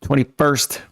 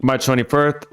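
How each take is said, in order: First: Said in the usual way. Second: "twenty-first" with a lisped s; slight lisp. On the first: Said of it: "Why did I just do, like, a lisp?". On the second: Real, not acted. Reader slips while reading the date, lisping "twenty-first". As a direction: let the s of "twenty-first" slip toward th. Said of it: "like, a lisp?".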